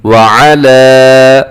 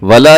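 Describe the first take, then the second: First: व अला with a clear ayn and long final aa; correct tajweed. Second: वला clipped into one word, ayn missing; wrong pronunciation. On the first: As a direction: slowly separate व अला, sounding the ayn. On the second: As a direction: say वला plainly without the throat sound. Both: Shown as a demonstration. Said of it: "वला नहीं बल्कि व अला".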